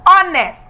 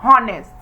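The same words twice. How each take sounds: First: The word starts with a vowel sound. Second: The word starts with an h sound. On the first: The speaker calls it right. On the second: The speaker calls it wrong. "and not honest"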